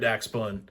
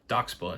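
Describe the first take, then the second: First: The first vowel sounds like the one in 'back'. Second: The first vowel sounds like the one in 'dock'. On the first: The speaker calls it wrong. "I'm sitting here saying it wrong myself" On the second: The speaker calls it right. "Doxbun, not Daxbun"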